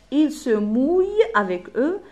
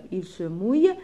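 First: Slow and louder, "mouille" held out and raised; slow dictation. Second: Said in the usual way. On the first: Shown as a demonstration. Teacher gives pupils the next rhyme line, slow emphatic dictation. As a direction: dictate "Il se mouille" slowly, word by word.

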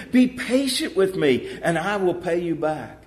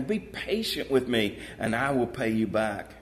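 First: Pleading. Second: Said in the usual way. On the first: A narrator's reading. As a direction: plead with the creditor for time. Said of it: "he begged him". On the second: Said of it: "Same thing".

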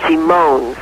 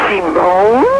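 First: Said in the usual way. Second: Astonished question with a rising end; flabbergasted. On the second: Acted. Wife repeating her husband's revelation, flabbergasted. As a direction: echo it back in mock disbelief. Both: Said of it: "The wife is flabbergasted".

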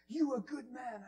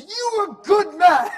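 First: Put-on raised, higher Spanish-accented voice; retold praise in a Spanish accent. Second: Put-on screaming, high, drawn-out Spanish accent; all-out shouted Spanish-accented praise; aggressive Spanish man. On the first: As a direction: imitate an insistent Spanish man. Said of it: "and a Spanish man". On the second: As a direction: bellow it slowly as an over-the-top imitation. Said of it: "And he's so aggressive".

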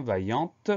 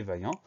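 First: "vaillante" ending in an audible, released T; sounded final T. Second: "vaillant" ending on the nasal vowel, no T; silent final T. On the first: Teacher showing pupils the feminine form, sounded final T. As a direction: make the T at the end of "vaillante" heard. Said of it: "on entend le T muet". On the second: Teacher giving the masculine of the adjective, silent final T. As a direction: leave the T of "vaillant" unsaid. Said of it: "On a un T muet". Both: Shown as a demonstration.

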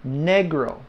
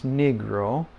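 First: "Negro" with an eh in the first syllable; Spanish pronunciation. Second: "negro" with an ih or ee in the first syllable; English pronunciation. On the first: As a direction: say "Negro" the Spanish way, NEH-gro. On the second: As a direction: say "negro" the English way, NEE-gro. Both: Shown as a demonstration. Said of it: "it's not the same as negro".

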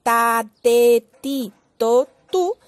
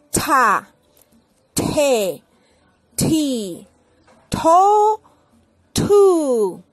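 First: Ta te ti to tú unaspirated; Spanish T. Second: Ta te ti to tu with strong puffs of air, louder; aspirated T. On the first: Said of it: "Así en español decimos". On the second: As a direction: push air out on every T. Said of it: "en inglés tenemos que echar mucho aire". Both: Shown as a demonstration.

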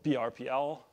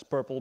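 First: "P R P L" said as four separate letters; spelled out letter by letter. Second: "purple" said as one word, like the colour. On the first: Naming Google's pattern for the audience, spelled letter by letter. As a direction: spell out P, R, P, L one letter at a time. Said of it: "people tend to, uh, pronounce it as purple". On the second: Explaining how people say the pattern, as one word "purple". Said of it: "pronounce it as purple because it's easier". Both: Shown as a demonstration.

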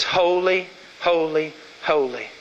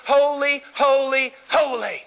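First: Hushed, reverent holy; solemn awe. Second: Seraph's cry. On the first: Shown as a demonstration. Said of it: "It says". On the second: Acted. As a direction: call out holy, holy, holy like the seraphim. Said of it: "and one cried unto the other".

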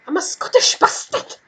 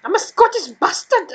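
First: Half-voiced, higher botched Scottish accent; bad Scottish accent. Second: A weak, higher mock Scottish accent; bad Scottish accent. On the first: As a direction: attempt a Scottish accent again, badly. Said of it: "I don't have a good accent in Scottish". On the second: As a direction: try a Scottish accent and miss. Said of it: "That was terrible".

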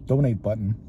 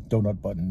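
First: "Donate" said properly as DOH-nate; "Donate button", the word for giving money; corrected to donate. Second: "Donut" said as the pastry, DOH-nut; "Donut button" with a donut sound, not donate; misspoken donut. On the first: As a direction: fix the slip: "Donate button". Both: Real, not acted.

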